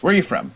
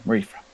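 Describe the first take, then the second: First: High-pitched wizard question; inquiring wizard. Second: Softer, murmured echo; echoed question. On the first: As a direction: ask in a high character voice. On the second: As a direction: repeat it under your breath. Second wizard echoes the question. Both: Acted.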